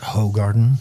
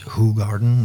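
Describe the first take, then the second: First: The name is said like English 'hoe garden'. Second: The name is said with Flemish sounds. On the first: The speaker calls it wrong. "not Hoegaarden. The garden of a hoe is something completely different" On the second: The speaker calls it right. "it's Hoegaarden"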